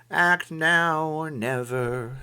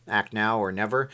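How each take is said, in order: First: Slow, higher, drawn-out delivery; slow dramatic read. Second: Said in the usual way. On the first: Shown as a demonstration. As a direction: stretch each word like a slogan. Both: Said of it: "it says act now or never".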